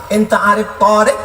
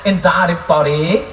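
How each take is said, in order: First: "Torik" with the alif in the wrong place, the first vowel stretched long; wrong vowel length. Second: "Torik" said with the vowel length correct, as the right model. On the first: Retold or imitated. Friend asking the taxi driver, long vowel misplaced. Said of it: "Gara-gara alifnya dia pasang Torik". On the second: Shown as a demonstration. Preacher showing the correct question, careful pronunciation. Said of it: "padahal yang betul mestinya dia tanya".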